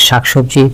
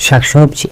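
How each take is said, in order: Both takes have the same delivery.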